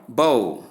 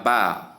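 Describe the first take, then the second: First: "bow" rhyming with "go"; noun pronunciation. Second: "bow" rhyming with "cow"; verb pronunciation. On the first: Teacher giving bow as ribbon or weapon, rhymes with go. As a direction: say "bow" like "boh". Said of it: "meaning ribbon or weapon". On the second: Teacher giving bow as bending over, rhymes with cow. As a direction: say "bow" with an ow diphthong. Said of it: "meaning to bend over". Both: Shown as a demonstration.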